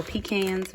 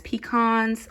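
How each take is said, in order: First: Pecans said "pee-KANS"; pecans ending just like "cans"; own regional pronunciation. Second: Pecans said "pee-KAHNS"; pecans rhyming with "swans"; alternate pronunciation. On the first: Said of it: "We say pecans". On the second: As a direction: say pecans with an open "ah" in the second syllable. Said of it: "pecans or pecans". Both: Shown as a demonstration.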